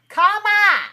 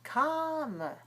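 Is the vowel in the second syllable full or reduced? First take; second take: full; reduced. First: The second syllable has a full, stressed vowel. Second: The second syllable has a reduced, relaxed vowel. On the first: The speaker calls it wrong. "then that's not the English pronunciation. All right, then that's wrong" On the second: The speaker calls it right. "So try it like this"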